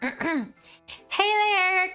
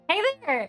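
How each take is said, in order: First: It is said in a put-on Zoe voice. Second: It is said in the speaker's natural voice.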